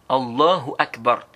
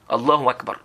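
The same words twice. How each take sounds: First: The h sound in Allahu is clearly pronounced. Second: The h sound in Allahu is left out. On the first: The speaker calls it right. "Et tu prononces bien le, le ha" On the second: The speaker calls it wrong. "ils ne prononcent pas le ha"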